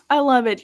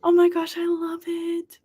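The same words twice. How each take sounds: First: Said in the usual way. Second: High, stretched, cooing "love"; gushing. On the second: Real, not acted. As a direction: let the words melt with delight. Reacting to viewer news.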